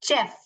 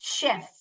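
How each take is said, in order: First: The word begins with a 'ch' sound. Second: The word begins with an 'sh' sound. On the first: The speaker calls it wrong. "You will not pronounce this as चेफ" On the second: The speaker calls it right. "You will pronounce this as शेफ"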